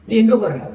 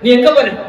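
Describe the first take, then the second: First: It is asked as a plain, neutral question. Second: It is asked in an accusing, challenging tone.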